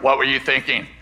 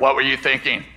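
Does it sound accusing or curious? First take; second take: accusing; accusing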